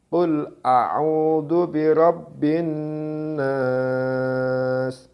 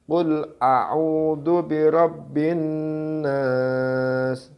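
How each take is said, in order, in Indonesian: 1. Vokal panjang terakhir dibaca sangat panjang. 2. Vokal panjang terakhir dibaca cukup panjang. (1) "Enam harokat" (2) "Empat harokat"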